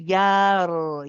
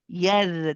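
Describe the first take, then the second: First: The r sound is heavy and full. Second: The r sound is light and thin. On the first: The speaker calls it right. "We need to pronounce it heavy" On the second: The speaker calls it wrong. "This is wrong because the ra is light"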